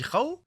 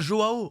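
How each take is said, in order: First: The first letter is read as a Spanish J. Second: The first letter is read as a Portuguese J. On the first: The speaker calls it wrong. "le J en espagnol, ça se dit Rao" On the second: The speaker calls it right. "en portugais"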